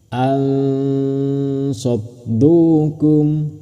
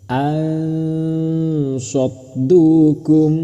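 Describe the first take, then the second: Both takes have the same delivery.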